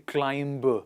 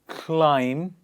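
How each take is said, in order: First: The final b is sounded. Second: The final b is silent. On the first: The speaker calls it wrong. "So many people say climb, That's wrong English" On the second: The speaker calls it right. "We say ... You just stop at M"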